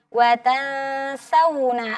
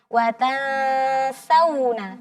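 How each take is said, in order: Both takes have the same delivery.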